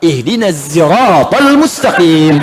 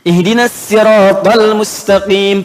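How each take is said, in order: First: Siratal begins with a buzzing z sound. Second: Siratal begins with a plain, light s sound. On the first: The speaker calls it right. "pakai sai" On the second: The speaker calls it wrong. "pakai sin"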